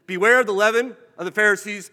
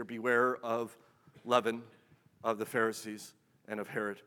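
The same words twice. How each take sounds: First: Loud warning. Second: Hushed warning. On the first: Preacher thundering Jesus' warning at the congregation. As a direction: boom the warning out, much louder. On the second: Preacher recalling the ignored warning, low and hushed. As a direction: drop the warning to a low, soft hush. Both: Acted.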